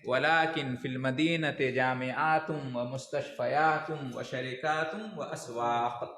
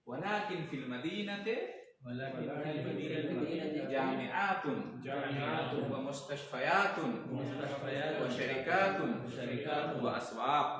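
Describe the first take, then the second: First: The word endings blend into the following words. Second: Each word ending is said separately, unlinked.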